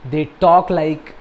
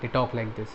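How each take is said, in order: First: Said in the usual way. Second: Softer, deadpan monotone, no smile; flat robotic family. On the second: Shown as a demonstration. Reviewer showing how the film's family sounds, flat and robotic. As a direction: say it like the family would, emotionless and stiff.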